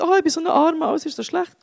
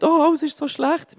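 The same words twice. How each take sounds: First: High mock whine of self-pity; whiny moaning. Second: High, drawn-out mock whine; whiny moaning. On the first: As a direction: play Job moaning much higher, hammed up. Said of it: "der Hiob jammert und sagt". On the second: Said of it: "habe ich mega gejammert".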